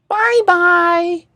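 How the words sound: It is said in a high, squeaky voice.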